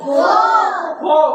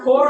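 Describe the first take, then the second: First: The final r sound is dropped. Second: The final r sound is pronounced. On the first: The speaker calls it right. "ফো হবে" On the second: The speaker calls it wrong. "ফোর হবে না"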